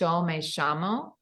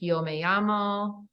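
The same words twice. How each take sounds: First: The Y and LL sound like English 'sh'. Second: The Y and LL sound like English 'y'. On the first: "they say yo me llamo. So for any double L and any Y, it's a sh sound" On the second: "instead of saying like yo me llamo"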